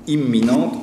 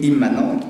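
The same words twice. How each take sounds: First: "imminente" said by mistake for the intended word; slip of the tongue. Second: "immanente" said correctly after a false start; corrected "immanente", restarting the word; self-correction. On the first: Lecturer on Ford's film misspeaks a key word, slip of the tongue. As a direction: misspoken "imminente", to be corrected right after. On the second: Lecturer corrects himself to the right term, careful self-correction. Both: Real, not acted.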